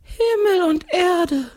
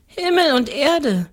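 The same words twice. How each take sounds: First: Very high, slow drawn-out ghostly cry; exclaiming ghost. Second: Put-on high, matter-of-fact child voice; little girl's answer. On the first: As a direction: echo it in long wailing wonder. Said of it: "ruft der Geist". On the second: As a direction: answer simply as a little girl. Girl answers the curious ghost. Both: A narrator's reading.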